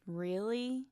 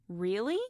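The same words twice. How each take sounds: First: The word sounds doubtful. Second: The word sounds surprised. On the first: The speaker does not believe this. "Doubtful would be" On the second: The speaker did not expect this. "If you're surprised"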